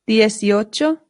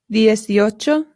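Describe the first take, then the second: The two takes are said the same way.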